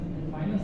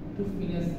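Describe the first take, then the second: First: The first syllable of finance sounds like 'fie'. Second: The first syllable of finance sounds like 'fee'. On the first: "চেষ্টা করবেন ফাইন্যান্স শব্দটা কোড করা" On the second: "ফিনান্সকে ফি দিয়ে বলেন"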